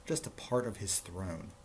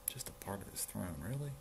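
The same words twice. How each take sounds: First: Said in the usual way. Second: Soft, incredulous echo, rising on "really"; hushed aside, questioning the story; quiet disbelief. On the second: Real, not acted. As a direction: repeat it under your breath, unimpressed. Reader repeats the line in disbelief.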